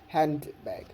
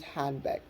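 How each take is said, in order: First: The d sound in the middle is heard. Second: The d sound in the middle is dropped. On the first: The speaker calls it wrong. "not handbag" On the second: The speaker calls it right. "do not um, pronounce the d in the handbag. So use handbag"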